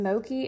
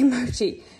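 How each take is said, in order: First: The middle consonant is a hard k sound. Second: The middle consonant is a ch sound. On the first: The speaker calls it wrong. "Am I saying that right?" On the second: The speaker calls it right. "Okay, Mochi"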